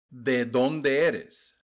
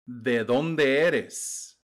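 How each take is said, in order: Both takes have the same delivery.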